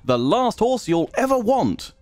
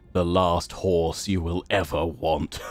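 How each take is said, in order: First: The phrase is said in a cheerful tone. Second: The phrase is said in a sinister tone. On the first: The horse is so good you will never need another. "and quite a positive thing" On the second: The horse will bring about the rider's death. "that's quite evil, that one"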